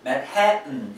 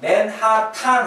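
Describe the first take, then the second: First: It is said with American-style sounds. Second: It is said with Korean-style sounds. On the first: "와이프가 저한테 맨해튼 이랬어요" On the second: "맨하탄 할 때 웃었어요"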